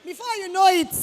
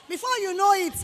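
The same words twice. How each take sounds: The two takes are said the same way.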